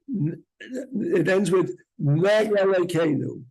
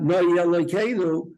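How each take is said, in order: First: Noi Elokeinu said slowly, aleph kept; deliberate, slow. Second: Noi Elokeinu with a yud sound slipped in; wrong version. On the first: Teacher slowing down to show the aleph. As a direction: separate Noi from Elokeinu carefully. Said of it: "You have to be more deliberate when you say it". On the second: Teacher showing the mistake students make. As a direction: blur Noi into the next word. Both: Shown as a demonstration.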